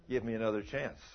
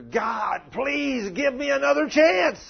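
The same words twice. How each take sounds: First: Said in the usual way. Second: High desperate scream for another chance; screaming plea. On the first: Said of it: "I guarantee he's screaming". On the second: Retold or imitated. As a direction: cry out to God, begging from far below. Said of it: "screaming down there".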